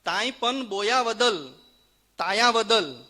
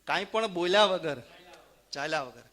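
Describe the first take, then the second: First: Consonants are lisped like a child's baby talk. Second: Consonants are pronounced plainly and clearly. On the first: "તોતડો બોલતો હોય એવી રીતે" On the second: "હું અનુવાદ કરતો જઈશ"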